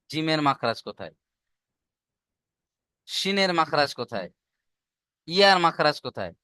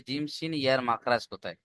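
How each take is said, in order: First: জিমের, শিনের, ইয়ার each in its own falling question; asked one by one. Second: জিম, শিন, year run together in one soft question; asked all together. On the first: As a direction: quiz জিমের, শিনের, ইয়ার separately, pausing between. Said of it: "এইভাবে ধরবেন". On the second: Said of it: "ওস্তাদ আপনাকে কিন্তু একসঙ্গে ধরবে না". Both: Acted.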